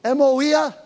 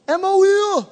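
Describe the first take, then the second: First: Said in the usual way. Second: EMOIA pitched high and held level; high-pitched attempt. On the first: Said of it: "How do you say it". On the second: Real, not acted. Preacher trying Tom's Greek word, high-pitched. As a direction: sing out Emoia well above normal pitch.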